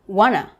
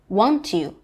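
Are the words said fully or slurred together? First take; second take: slurred; fully. First: The two words are slurred together as one. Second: Both words are said separately and fully.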